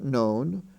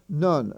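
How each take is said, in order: First: The vowel is a long O sound. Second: The vowel is not a long O sound. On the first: The speaker calls it wrong. "not known" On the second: The speaker calls it right. "N O N E is pronounced none"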